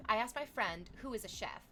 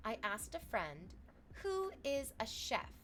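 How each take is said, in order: First: Said in the usual way. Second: Slow, with the pitch raised on "who is a chef"; misplaced emphasis. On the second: Real, not acted. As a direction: read "I asked a friend who is a chef" slowly, lifting "who". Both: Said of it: "I got the emphasis wrong".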